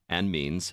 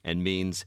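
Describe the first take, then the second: Both takes have the same delivery.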